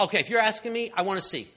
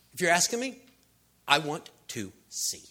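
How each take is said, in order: First: Loud, raised, eager reply; eager answer. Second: "I want to see" spaced out word by word; deliberate answer. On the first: Blind man answers Jesus' question, loud and eager. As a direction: blurt out the request with energy. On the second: Blind man repeats his wish to Jesus, measured and deliberate. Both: Acted.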